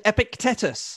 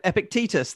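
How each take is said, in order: First: Epictetus said ep-ic-TET-us, short e; mispronounced name. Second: Epictetus said ep-ic-TEE-tus, long ee; corrected pronunciation. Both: Real, not acted.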